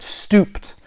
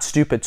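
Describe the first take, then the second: First: "stooped" in one syllable with long OO; corrected STOOPED. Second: Said in the usual way. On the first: Shown as a demonstration. Correcting himself after stupid, "stooped" in one syllable. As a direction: drop the second vowel in "stooped". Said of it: "not stupid, stooped". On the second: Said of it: "Sorry, not stupid".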